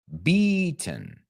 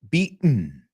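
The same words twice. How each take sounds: First: The t is fully released, British style. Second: The t is a glottal stop, American style. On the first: "Esa es más británica" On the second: "Eso es el glottal stop americano"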